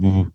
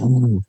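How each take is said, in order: First: The W is said as in English. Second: The W is said with a Greek accent.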